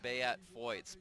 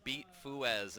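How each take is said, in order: First: The first name has two syllables, bay-aht. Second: The first name is one syllable, like beet. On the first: The speaker calls it right. "instead of" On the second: The speaker calls it wrong. "we used to call him"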